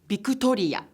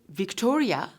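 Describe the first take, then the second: First: It is said with a Japanese accent. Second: It is said with an English accent. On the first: "will be pronounced as Victoria" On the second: "the name Victoria"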